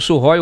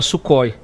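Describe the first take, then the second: First: The name is said with a Russian-style pronunciation. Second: The name is said with a plain Portuguese pronunciation. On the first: This is the more refined, native way to say it. "Aí você vem com Sukhoi, humilha todo mundo" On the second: This is how ordinary people say it. "nós, réis mortais, a gente fala Sukhoi"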